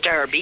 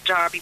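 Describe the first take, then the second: First: The word is said the way it is spelled. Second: The word is said with an anglicised pronunciation. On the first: It is the newer way of saying it. "if you're phonetically correctly pronouncing it" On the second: It is the older way of saying it. "the older crew who call it Derby, which is a bit anglicised"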